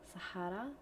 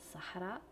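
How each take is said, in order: The two takes are said the same way.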